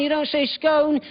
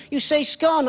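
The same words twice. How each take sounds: First: "scone" with a long oh, rhyming with "bone"; mock the wrong "scone" that rhymes with "bone"; wrong pronunciation quoted. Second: "scone" short, rhyming with "gone"; correct pronunciation. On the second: Retold or imitated. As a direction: firmly model "scone" to rhyme with "on". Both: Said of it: "She said".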